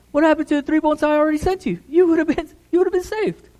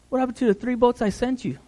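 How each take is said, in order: First: Pushed higher and faster, stressing "happened"; emphatic repeat. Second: Said in the usual way. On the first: Acted. Jesus pressing the drowned man, higher and faster. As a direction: drive the question home, faster. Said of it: "repeated louder, higher". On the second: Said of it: "repeats with emphasis".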